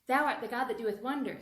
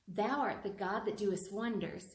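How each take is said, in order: First: It is said at the fastest speed. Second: It is said at a fast speed. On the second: "Can you do faster?"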